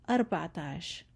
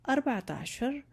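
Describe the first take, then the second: First: The final sound of the last word is dropped. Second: The final sound of the last word is pronounced. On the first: This is the everyday modern way of counting. "I did not pronounce the last letter of عشر" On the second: This is the original standard way of counting. "but we still can say"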